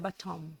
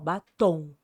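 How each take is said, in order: First: The word ends with the lips closed on M. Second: The word ends in a nasal vowel, lips open. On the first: "com M boca fechada" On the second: "A gente fala tom, ó, é diferente"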